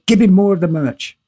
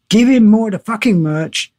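First: Said in the usual way. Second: Higher, insistent hit on "Give him more"; retold demand, "fucking merch" said with emphatic insistence; forceful repeat. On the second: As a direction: punch "Give" high, then drive through "fucking merch".

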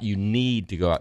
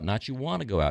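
First: Need pressed firmly; stress on need. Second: "wanna" dropped soft and dismissive; wanna said softer. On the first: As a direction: lean on "need", not want. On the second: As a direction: throw away "wanna go out". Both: Retold or imitated.

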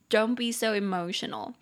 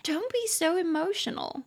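First: Said in the usual way. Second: Light mocking tease, pitched up; teasing a friend. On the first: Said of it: "你就可以说". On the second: Teasing a close friend about being worked up, playful and mocking. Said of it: "你想要跟他开玩笑".

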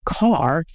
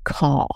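First: "car" with a clearly sounded r; r pronounced. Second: "caw" with the r dropped, long open vowel; non-rhotic r. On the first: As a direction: say "car" with the hard American R. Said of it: "pronounce words like car as caw". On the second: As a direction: say car as "caw", no r at the end. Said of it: "to pronounce words like car as caw". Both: Shown as a demonstration.

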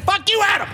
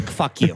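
First: High-pitched retold yell. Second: Lower, understated and affectionate; loving, hug-like. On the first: Replaying the yell at Adam, high mock yell. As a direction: re-enact the yell, voice shooting up. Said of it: "I yelled it out like that". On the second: Retold or imitated. Excusing the yell as loving, low gentle delivery. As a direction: say the curse like a hug, pitched down. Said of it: "it was a hug".

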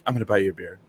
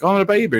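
First: Said in the usual way. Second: Mock eager reply. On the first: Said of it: "he'd be like". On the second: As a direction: chirp it back at him, eager and bright. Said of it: "I'd be like".

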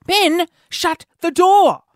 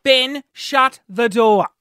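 First: High, slow re-enacted yell; really loud order. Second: Firm repeated order. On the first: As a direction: call out each word as a startled reprimand. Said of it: "I said that really loudly". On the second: Retold or imitated. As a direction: spell it out word by word. Repeats the order, less forcefully.

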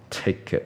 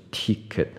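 First: "ticket" with a lax short i, near teh-ket; correct short vowel. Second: "ticket" with a tense ee, like tee-ket; wrong vowel. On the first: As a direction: model ticket with a relaxed, lower first vowel. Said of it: "记得票是ticket". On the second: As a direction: say ticket the mistaken way, long first vowel. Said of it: "不是ticket". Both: Shown as a demonstration.

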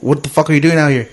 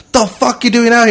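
First: Casual, toned-down cop question; relaxed imitated police question, only slightly raised; chilled. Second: High, forceful imitated demand; heated mock police challenge; aggressive cop. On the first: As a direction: ask it like a cop who has calmed down. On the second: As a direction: confront him like an angry cop, pitched way up. Cop throws him against car.

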